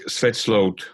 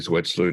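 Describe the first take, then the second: First: The name is said the Dutch way. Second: The name is said the English way.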